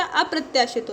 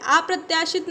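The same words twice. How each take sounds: First: अप्रत्याशित with a short "a" at the start; short first vowel in अप्रत्याशित; correct vowel. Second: अप्रत्याशित with a long "aa" at the start; wrong vowel. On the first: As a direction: say अप्रत्याशित as "a-pratyaashit". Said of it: "अप्रत्याशित होता है". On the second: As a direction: say अप्रत्याशित as "aa-pratyaashit". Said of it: "अप्रत्याशित नहीं होता". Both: Shown as a demonstration.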